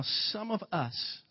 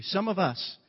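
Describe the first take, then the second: First: "some of us" said slowly, each word held; drawn-out SOME OF US. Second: "some of us" pitched up as a correction; insistent SOME OF US. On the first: Preacher gently including himself with the congregation, slow, weighted "some of us". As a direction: stretch out "some of us" at the usual pitch. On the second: Preacher correcting "you" to include himself, higher, emphatic "some of us". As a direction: lift "some of us" higher, punching it as the right wording. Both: Shown as a demonstration. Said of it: "I don't say some of you".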